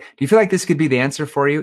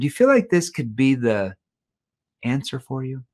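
First: It is asked quickly without any pause. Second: It is asked slowly in a lower, softer tone. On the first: It is a knee-jerk question that invites a knee-jerk answer. The speaker calls it wrong. "if you don't use a verbal pause, you're like" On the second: The speaker shows empathy and invites deeper thought. The speaker calls it right. "if I slow down and I lean in, ... my tone shifts down into more of a tone that shows empathy"

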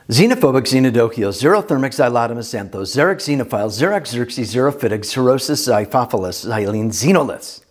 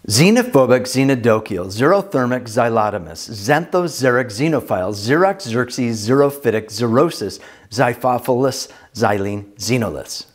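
First: The words are read at a fast pace. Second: The words are read at a moderate pace. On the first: "Let's do that again, but as fast as an X-Wing" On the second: "try this with me with your best possible pronunciation"

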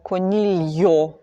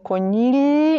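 First: A y-glide is heard after the l. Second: The l runs straight into the vowel. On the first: The speaker calls it wrong. "Ми не кажемо" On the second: The speaker calls it right. "ми кажемо"

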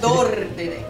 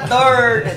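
First: It is said in a southern gaúcho accent. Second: It is said in a local Sorocaba accent. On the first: This is how people from the south say it. "Ele fala dor de dente" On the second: This is how people here say it. "aqui nós fala dor de dente"

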